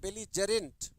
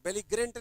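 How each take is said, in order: First: The middle consonant is a j sound. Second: The middle consonant is a hard g sound. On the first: The speaker calls it right. "ज में पढ़ते हैं" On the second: The speaker calls it wrong. "ग में नहीं, बेलिग्रेंट नहीं"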